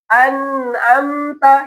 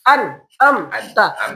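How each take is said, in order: First: The word is said smoothly without breaks. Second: The word is broken into separate chunks. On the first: "Cara bacanya tadi udah benar" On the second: "Biasanya kalau anak kecil ngafal kayak gitu"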